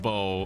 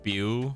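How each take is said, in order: First: The name rhymes with 'go', ending in 'oh'. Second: The name rhymes with 'spew', ending in 'ew'. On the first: The speaker calls it right. "no, it's pronounced Bo" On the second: The speaker calls it wrong. "I thought, for whatever reason, it was pronounced like Bew"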